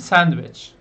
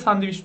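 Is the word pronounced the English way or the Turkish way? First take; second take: English; Turkish. First: The word is said with English sounds, like sandwich. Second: The word is said with Turkish sounds, like sandviç. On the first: The speaker calls it right. "Ne demeniz lazım?" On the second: The speaker calls it wrong. "İngilizce bunu da görünce sandviç diye okuyor çoğu kişi. Ama değil"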